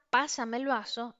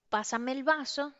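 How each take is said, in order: First: Firm commanding request, like giving an order; bossy order for a glass; authoritative. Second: Said in the usual way. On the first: Shown as a demonstration. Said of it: "con una carga emocional de autoridad". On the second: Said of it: "no es lo mismo decir".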